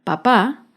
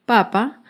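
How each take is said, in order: First: "papá" stressed on the final syllable, pa-PÁ; teacher's careful pa-PÁ for "papá"; stress on second syllable. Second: "papa" stressed on the opening syllable, PA-pa; teacher's careful PA-pa for "papa"; stress on first syllable. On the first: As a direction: hit the last PÁ of "papá", first one light. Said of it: "La segunda palabra". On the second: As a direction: hit the first PA of "papa", second one light. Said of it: "La primera palabra". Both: Shown as a demonstration.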